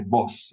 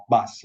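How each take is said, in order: First: "bus" with the vowel of "foot"; northern bus. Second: "bus" with an open "uh" vowel; southern bus. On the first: Lecturer defending northern speech, "bus" with foot vowel. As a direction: say "bus" as "buss" rhyming with "puss". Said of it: "nothing inherently uneducated if you say". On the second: Lecturer contrasting two accents, southern "uh" in "bus". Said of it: "Southerners have the uh sound". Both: Shown as a demonstration.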